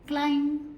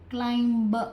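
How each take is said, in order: First: The word ends without any b sound. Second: The final b sound is clearly pronounced. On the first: The speaker calls it right. "आप सिर्फ क्लाइंब कह के छोड़ सकते हैं" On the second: The speaker calls it wrong. "आपको ये नहीं कहना है क्लाइंब"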